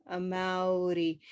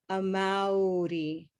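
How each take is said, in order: The two takes are said the same way.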